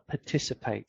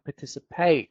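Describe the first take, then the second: First: The pitch falls at the end of the word. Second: The pitch rises at the end of the word. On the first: The speaker calls it right. "I'm always going down with my stress" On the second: The speaker calls it wrong. "how Russian speakers often say like participate ... which is going up at the end"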